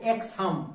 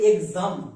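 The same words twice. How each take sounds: First: The x is sounded as ks. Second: The x is sounded as gz. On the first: The speaker calls it wrong. "Not এক্সাম" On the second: The speaker calls it right. "এর উচ্চারণটা আমরা করব এক্সাম"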